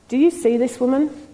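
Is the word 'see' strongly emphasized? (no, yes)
no. The word 'see' carries no special emphasis. A plain question about noticing the woman. "did he say it like that?"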